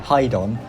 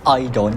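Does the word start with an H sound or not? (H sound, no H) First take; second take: H sound; no H. First: The word begins with an H sound. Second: The word begins without an H sound.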